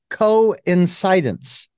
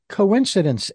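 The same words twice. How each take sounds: First: The word is split into co and incidence. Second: The word is said smoothly as one unit. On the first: The events happen together and are not random. The speaker calls it right. "It's coincidence. Incidents that just" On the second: It is an ordinary chance event. The speaker calls it wrong. "I don't say coincidence anymore"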